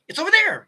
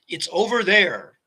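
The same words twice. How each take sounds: First: It is spoken quickly in a light voice. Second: It is spoken slowly in a deep voice. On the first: The speaker calls it wrong. "instead of" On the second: The speaker calls it right. "speak from your diaphragm"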